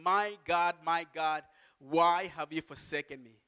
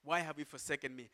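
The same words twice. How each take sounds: First: Raised-voice cry of anguish, understated. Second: Quicker, softer repeat; softer echo of the cry. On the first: Preacher voicing Jesus on the cross, crying out. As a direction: cry out to God with measured force. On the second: Preacher repeating Jesus' question, softer echo. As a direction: let the cry drop to a quiet question. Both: Acted. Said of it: "he cried out in a loud voice".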